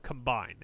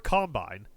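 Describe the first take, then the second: First: "combine" with a reduced first vowel and stress on BINE; "combine" light on com, landing on BINE; verb stress. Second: "Combine" stressed on the first syllable, COM-bine, full first vowel; "Combine" with the weight up front like the noun. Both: Shown as a demonstration. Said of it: "put an emphasis on a different syllable for the noun".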